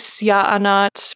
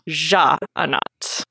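First: The name begins with a y sound. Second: The name begins with a soft French j sound. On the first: "because of the Voren J is a Y" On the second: "Like the sort of French J"

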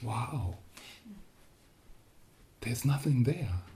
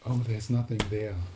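First: It is said with a gasp of awe. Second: It is said flatly, without wonder.

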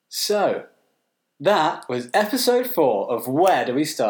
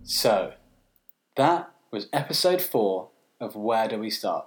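First: It sounds like a jolly children's TV presenter. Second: It sounds like a serious news presenter.

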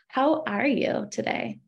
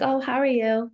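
First: It sounds warm and sincere, genuinely meant. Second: It sounds quick and casual, like a routine greeting.

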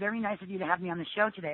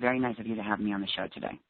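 First: The voice sounds warm, with a smile. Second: The voice sounds flat, without a smile. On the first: The speaker calls it right. "with a smile" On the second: The speaker calls it wrong. "without a smile"

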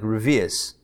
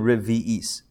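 First: The middle vowels run together into a glide. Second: The middle vowels are kept separate and distinct. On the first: "when you pronounce it quickly, no one's gonna go that hard on it" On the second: "but it's really"

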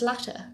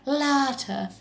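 First: The first syllable is light and unforced. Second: The first syllable is pushed hard and long. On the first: The speaker calls it right. "No, it's just Latter" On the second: The speaker calls it wrong. "They emphasise the first syllable way too much. They go like"

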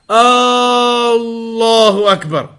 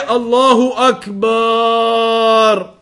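First: The opening vowel of the phrase is drawn out. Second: The vowel after the b in the last word is drawn out. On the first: "with a long tone at the beginning" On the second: "Don't extend the ba"

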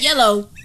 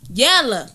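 First: The word ends in an 'oh' sound. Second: The word ends in an 'ah' sound. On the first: The speaker calls it wrong. "Not yellow" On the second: The speaker calls it right.

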